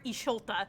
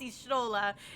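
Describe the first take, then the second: First: The t sound comes after the l sound. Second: The t sound comes before the l sound. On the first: The speaker calls it wrong. "and you're Isholta" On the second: The speaker calls it right. "it's Ishtola"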